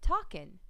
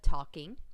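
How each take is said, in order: First: The word ends with a plain 'n' sound. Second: The word ends with a full 'ng' sound. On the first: The speaker calls it wrong. "leave off the endings" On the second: The speaker calls it right. "instead of talking"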